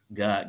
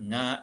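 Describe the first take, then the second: First: The consonant is a plain hard g sound. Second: The consonant is a nasal ng sound. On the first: "Ini diucapkan ga" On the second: "atau boleh juga diucapkan nga... Sengau ya"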